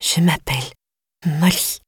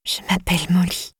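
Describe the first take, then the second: First: Said in the usual way. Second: Whispered. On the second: A narrator's reading. Captive girl whispers her name to Flora, hushed. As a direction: breathe the name out, barely voiced. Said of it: "a enfin retrouvé sa voix".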